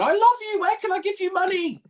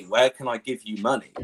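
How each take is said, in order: First: Very high squeaky gushing fan voice; hammed-up falsetto fawning; mock adoring fan. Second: Said in the usual way. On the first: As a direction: squeal it like a smitten viewer, in mockery. Mocking imagined gushing chat fans.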